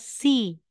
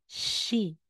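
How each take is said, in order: First: It begins with a plain s sound. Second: It begins with an sh sound. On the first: The speaker calls it wrong. "hindi mo yan bibigkasin na si" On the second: The speaker calls it right. "Bibigkasin mo yang she"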